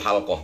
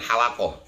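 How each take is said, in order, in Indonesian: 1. Bunyi l langsung menyambung ke bunyi k. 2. Sebuah vokal memisahkan bunyi l dari bunyi k. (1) "yang benar itu halqah" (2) "bukan halakoh"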